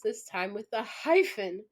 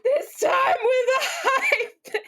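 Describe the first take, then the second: First: Said in the usual way. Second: High, loud, drawn-out shriek of laughter; hysterical laughing shout. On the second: Real, not acted. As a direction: repeat it incredulously, completely losing it. Repeats the line, cracking up.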